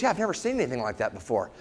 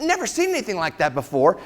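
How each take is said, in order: First: Quick, low, soft aside; imitating a casual doctor; offhand doctor. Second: Questioning echo with rising end; imitating a taken-aback patient; incredulous echo. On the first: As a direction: toss it off low and fast. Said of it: "He goes". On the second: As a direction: repeat it back in mock disbelief. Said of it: "I said".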